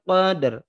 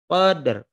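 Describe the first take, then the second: First: The final r is touched lightly with the tongue. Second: The final r is touched lightly with the tongue.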